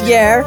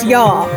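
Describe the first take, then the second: First: It is said in a Bristolian accent. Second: It is said in a posh accent. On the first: This is the voice used when broadcasting. "On air it's yer" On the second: This is the voice used off the air. "Off air it's yar"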